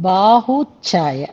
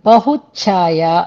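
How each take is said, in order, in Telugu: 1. మొదటి అచ్చును దీర్ఘంగా పలుకుతారు. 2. మొదటి అచ్చును హ్రస్వంగా పలుకుతారు.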